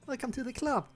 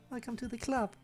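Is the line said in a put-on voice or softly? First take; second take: put-on voice; soft. First: It is said in a put-on character voice. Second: It is said very quietly and softly. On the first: "Can I still do it?" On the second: "It's gonna be very silent the entire time"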